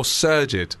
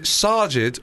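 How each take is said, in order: First: Sergid as SUR-jid; first vowel of Sergid like "sir"; "er" pronunciation. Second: Sajid as SAH-jid; "ah" pronunciation. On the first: Host offers second option before replay, Sergid as SUR-jid. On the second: Host offers first option before replay, Sajid as SAH-jid. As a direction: open first vowel in Sajid, like "ah". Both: Shown as a demonstration. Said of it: "Is it Sajid or Sergid?".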